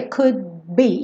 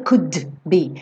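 First: Could be with the D held, not released; touch the D and go straight to B in could be; unreleased D. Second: Could be with the D popped before B; over-released D. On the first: Teacher shows the easy way, could be with silent-release D. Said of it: "encosto lá a língua no céu da boca". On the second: Teacher shows what is unnecessary, could be with released D. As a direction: sound the D separately in could be. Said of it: "esse D não precisa ser". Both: Shown as a demonstration.

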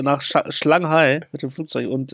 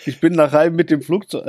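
First: Shanghai langsam und vollständig ausgesprochen; korrigiert. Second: Hai statt Shanghai gesagt, Silbe verschluckt; versprochen. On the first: (Shanghai sorgfältig korrigiert) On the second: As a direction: sag nur Hai mit flüssigem Tempo. (Hai statt Shanghai versprochen) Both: Real, not acted. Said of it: "äh, nach Sch".

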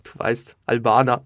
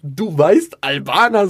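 First: Low-key, laconic answer; trying to act cool. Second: Raised, questioning echo of his own words; incredulous self-mockery. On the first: Retold or imitated. Young interviewer tells the rapper his origin, playing it cool. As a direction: toss it off casually, trying to seem cool. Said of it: "ich muss jetzt cool wirken". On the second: Comedian mocks what he told the rapper, incredulous. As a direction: throw it back in disbelief. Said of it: "was, was laber ich da".

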